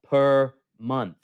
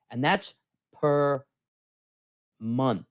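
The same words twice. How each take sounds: First: "per month" repeated louder, "per" hit hard; stress on per month. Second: Said in the usual way. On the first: Shown as a demonstration. Host repeating the fee to viewers, stressing "per". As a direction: lean on "per" and land "month". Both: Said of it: "Let me say that".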